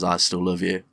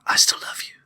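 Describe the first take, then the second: First: It is said in a normal voice. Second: It is whispered.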